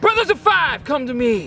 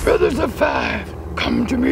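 First: It is said in a plain, normal speaking voice. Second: It is said in a put-on Yoda-like character voice. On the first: The speaker calls it right. "Just say it right" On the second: The speaker calls it wrong. "You're saying it like Yoda?"

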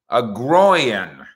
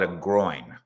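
First: It is said with a Texas drawl. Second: It is said in standard dictionary pronunciation.

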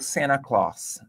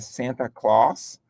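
First: The T in Santa is silent. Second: The T in Santa is clearly pronounced.

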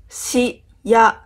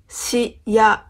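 Both takes have the same delivery.

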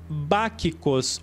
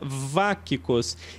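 First: It is said in an older Greek pronunciation. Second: It is said in a modern Greek pronunciation.

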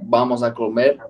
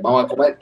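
First: Every sound is pronounced fully at a normal pace. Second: Sounds are dropped and the words are rushed together. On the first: "If you're going to say like" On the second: "they're going to say like, ... you skip like 12 vowels"

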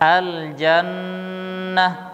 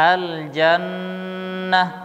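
First: The nasal n sound is held for three counts. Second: The nasal n sound is held for three counts.

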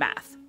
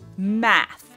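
First: The word is said loosely, without careful articulation. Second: The word is said slowly with careful articulation.

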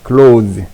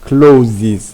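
First: The word is one syllable ending in 'z'. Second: The word ends with an extra 'iz' syllable. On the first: The speaker calls it right. "closes라고 안 하고 close라고 합니다" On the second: The speaker calls it wrong. "s만 붙이면 closes가 돼서 안 돼"

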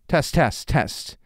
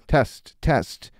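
First: The s sound is clear and natural. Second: The s sound is dulled, like a lisp. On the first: "Bring it down just one little peg" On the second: "Now it sounds like I have a lisp"

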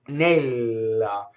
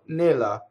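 First: The L sound is held long. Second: The L sound is short and quick.

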